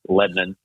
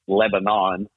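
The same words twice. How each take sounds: First: It is said the way locals say it. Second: It is said the Bristol-area way. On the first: This is how people from the town say it. "Everybody from here says Lebanon" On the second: This is how outsiders from Bristol say it. "if you're from Bristol area, it's Lebanon"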